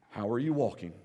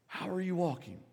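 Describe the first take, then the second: First: "you" leaned on, the rest low; How are YOU walking, low and pointed; stress on you. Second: "are" lifted high, the rest softer; How ARE you walking, higher and softer; stress on are. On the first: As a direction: ask it with "you" pressed. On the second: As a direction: ask it again, leaning on "are". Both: Shown as a demonstration. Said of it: "repeated with shifted stress".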